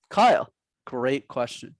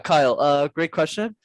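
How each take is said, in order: First: The gap is a silent pause, no filler. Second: The gap is filled with a hesitant 'uh'. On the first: The speaker buys time without filler words. The speaker calls it right. "they say nothing, absolutely nothing" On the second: The speaker is buying time with filler words. The speaker calls it wrong. "instead of going, uh, oh yeah"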